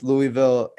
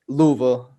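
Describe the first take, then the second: First: It is pronounced the usual outsider way. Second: It is pronounced the way locals say it.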